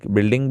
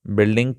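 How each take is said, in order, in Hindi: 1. पहला स्वर 'i' की ध्वनि है। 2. पहला स्वर 'i' की ध्वनि है।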